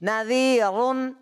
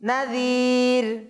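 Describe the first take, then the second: First: The r is heavy and the ending continues. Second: The r is light and the word stops. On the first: "এটা কি কি মোটা করে পড়েছি না?" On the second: "আর যদি থেমে যায়"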